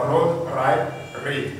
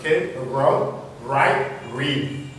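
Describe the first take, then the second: First: "road, right, read" with French R's; throat R starting "road", "right", "read". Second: "road, right, read" with English R's. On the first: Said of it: "c'est pas road". (« road, right, read » avec le R français) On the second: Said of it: "Le R également en début de mot". (« road, right, read » avec le R anglais) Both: Shown as a demonstration.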